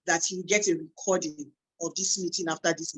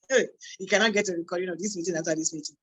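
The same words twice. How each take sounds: First: Said in the usual way. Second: Fast, insistent repeat of the warning; firm warning. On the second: Real, not acted. Host warning attendees there is no recording, insistent. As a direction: rattle it off so nobody misses it.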